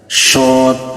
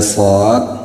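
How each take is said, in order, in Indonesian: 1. Konsonan itu terdengar tipis dan menyebar seperti 'sh'. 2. Konsonan itu terdengar penuh dan berat.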